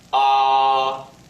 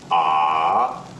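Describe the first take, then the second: First: The pitch stays high and level throughout. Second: The pitch dips down, then rises slightly. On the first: "It is a high and level pitch" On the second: "dip your pitch and then quickly raise it up a bit"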